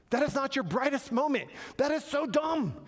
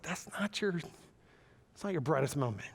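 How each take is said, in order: First: High-pitched, emphatic mock telling-off; God scolding from above. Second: God's gentle correction. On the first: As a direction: scold them to get their attention, playfully overdone. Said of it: "God's looking down, he's going". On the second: Acted. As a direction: gently let them down, taking your time. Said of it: "God's like".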